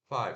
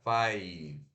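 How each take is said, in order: First: The 'ai' vowel is short and clipped. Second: The 'ai' vowel is drawn out long. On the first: The speaker calls it right. "se pronuncia F A I curto V" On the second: The speaker calls it wrong. "não é five"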